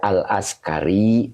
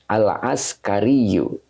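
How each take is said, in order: First: The word ends plainly on the 'i' sound. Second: The word ends with an added short vowel. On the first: "Cukup dibaca al-askari juga boleh ya" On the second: "dibacanya al-askariyu"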